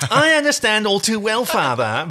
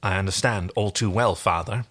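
First: Put-on high, whiny sulky teen; mopey teen. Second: Said in the usual way. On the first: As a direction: sulk it out like a moody teenager. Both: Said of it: "I'm gonna make him into mopey teen".

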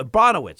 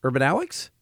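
First: Urbanowicz as ur-BON-o-wits; corrected pronunciation. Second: Urbanowicz as urban-OW-wicks, questioning; tentative UR-ban-OW-wicks for Urbanowicz; mistaken pronunciation. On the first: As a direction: land the stress on BON in Urbanowicz, ending in wits. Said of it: "Sorry. Okay". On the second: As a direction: say Urbanowicz with OW in the middle and a final ks, lower and rising. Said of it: "How would you pronounce his last name". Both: Real, not acted.

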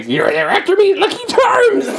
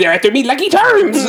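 First: Shrill-high cartoon leprechaun shout, louder; the concussed guy's only line, hammed up; squealed mascot catchphrase; Lucky Charms leprechaun. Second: High, loud cartoon leprechaun cry; mock mascot yell, much higher; Lucky Charms leprechaun. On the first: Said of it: "He got hit on the head, so this is all he can say". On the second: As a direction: belt the cereal ad's leprechaun line.

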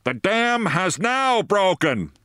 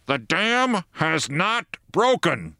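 First: Misheard bellow. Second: Megaphone call. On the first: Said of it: "thought the soldiers were bellowing". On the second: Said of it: "bawling through megaphones". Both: A narrator's reading.

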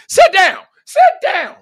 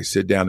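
First: Loud, high-pitched yell; yelled command. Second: Said in the usual way. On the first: Acted. Coach yelling at a kid to sit down, high shout. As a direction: bark it out way up high, twice. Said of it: "since you yelling like this". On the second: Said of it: "actually mean it or know how to say it".

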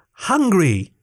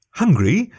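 First: High, restrained yell. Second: High, rising giant question. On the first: Tiny crewman making the giant hear, high restrained yell. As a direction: yell it high without much volume. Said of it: "Nikto yelled". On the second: Giant repeating the tiny creature's word, high questioning. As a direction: echo it as a surprised giant question. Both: A narrator's reading.

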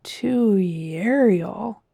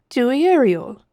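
First: "Dewey Ariel" drawn out slowly as a question; slow, questioning repeat of "Dewey Ariel"; mouthing the word. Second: "Dewey Ariel" pitched high, falling at the end; "Dewey Ariel" said briskly as a firm answer; confident statement. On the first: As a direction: sound out "Dewey Ariel", puzzled, rising at the end. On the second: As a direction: announce "Dewey Ariel" as a known place. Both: A narrator's reading. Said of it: "The captain mouthed the word".

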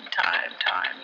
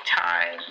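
First: Time, time breathed as a low whisper; whispered echo. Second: Said in the usual way. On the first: Acted. Radio host musing about time to listeners, whispered echo. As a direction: whisper the words like an echo fading.

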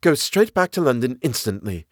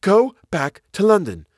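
First: Said in the usual way. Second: High, loud urgent cry. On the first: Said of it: "she said". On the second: Acted. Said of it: "she cried".

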